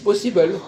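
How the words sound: It is said with a foreign-sounding pronunciation. The speaker calls it wrong. "ils disent possible"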